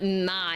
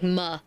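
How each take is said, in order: First: The vowel is a full gliding 'eye' sound. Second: The vowel is a short flat 'uh' sound. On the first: The speaker calls it wrong. "it's not my" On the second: The speaker calls it right. "it's like muh"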